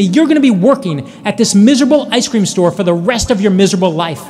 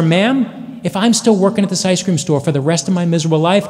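First: Half-screamed insult, played for the story; retold scream. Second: Said in the usual way. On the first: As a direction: imitate a ranting customer without fully screaming. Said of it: "And she screams at me". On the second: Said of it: "And I said to her".

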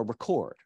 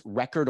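First: ReCORD, stressed on the second syllable as a verb; "record" with the weight at the end, on CORD. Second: RECord, stressed on the first syllable as a noun; "record" with the weight up front, on REC. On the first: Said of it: "the verbs on the second syllable". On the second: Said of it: "nouns have the stress on the first syllable". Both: Shown as a demonstration.

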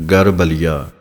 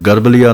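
First: ਗਰਬਲੀਆ as "gar, baliya", small gap after gar. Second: ਗਰਬਲੀਆ as one quick word, no gap; run-together misreading. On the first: Teacher modelling the gap, ਗਰਬਲੀਆ said "gar, baliya". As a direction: leave a gap inside ਗਰਬਲੀਆ before "baliya". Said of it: "gap ਦੇ ਕੇ ਬੋਲਣਾ ਹੈ". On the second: Teacher showing what not to say, ਗਰਬਲੀਆ without a gap. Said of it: "ਗਰਬਲੀਆ ਨਹੀਂ ਬੋਲਣਾ". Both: Shown as a demonstration.

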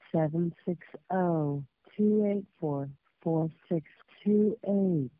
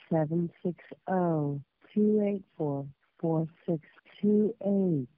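Both takes have the same delivery.

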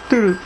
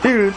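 No difference in how they are said.

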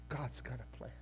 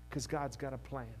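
First: Quieter, lower, settled; softer repeat. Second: Said in the usual way. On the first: Real, not acted. Pastor reassuring the congregation quietly after a laugh. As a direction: say it gently to yourself.

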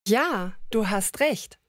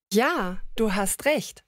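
No difference in how they are said.

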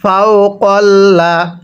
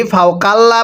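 First: ফাউ কল্লা with a rounded o in কল্লা; কল্লা said slowly with a short round o sound; correct reading. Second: ফাউ কাল্লা with a long open আ in কাল্লা; কাল্লা said with an open a vowel, the mistake; wrong reading shown. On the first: Teacher giving students the right way, round o. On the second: Teacher showing students the wrong way, open a. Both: Shown as a demonstration. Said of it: "পড়াটা শুদ্ধ হবে না".

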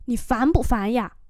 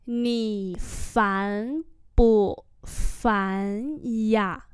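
First: Said in the usual way. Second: Syllable by syllable; long, separate tones; slow demonstration. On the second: Shown as a demonstration. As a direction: model the question slowly. Teacher repeats phrase slowly.

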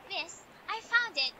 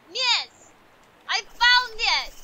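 First: Said in the usual way. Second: Loud, high, drawn-out declaration; triumphant mock proclamation, stretched out; emphatic announcement. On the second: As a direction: proclaim it slowly at full volume. Repeats it emphatically in game role.

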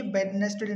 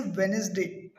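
First: "वेडनेसडे" as bed-nes-day, d sounded; mispronunciation. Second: "वेडनेसडे" as wen-is-day, silent d; corrected pronunciation. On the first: Teacher chiding learners, Punjabi-style wrong pronunciation. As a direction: say "वेडनेसडे" with b and full d. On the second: Teacher correcting Wednesday, said wen-is-day. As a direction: drop the first d in "वेडनेसडे". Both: Shown as a demonstration. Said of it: "ये वेडनेसडे नहीं है".

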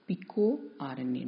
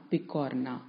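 First: PicoRNA said slowly as PICO, then the letters R-N-A; correct pronunciation. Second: Picorna run together as one word, pi-KOR-na; wrong pronunciation. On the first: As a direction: spell out the RNA in picoRNA, slow and separated. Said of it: "We have to pronounce it as". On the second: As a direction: blend picorna into a single word, no spelled letters. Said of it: "not picorna". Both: Shown as a demonstration.

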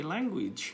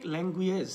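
First: Language said "læng-gwidʒ" with an "-idʒ" ending, slowly; correct pronunciation. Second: Language with the ending "-gueij", slowly; wrong pronunciation. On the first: Teacher models the correct ending slowly. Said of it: "So, that should be language". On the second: Teacher shows students the mistake. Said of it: "নাই, not like language". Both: Shown as a demonstration.

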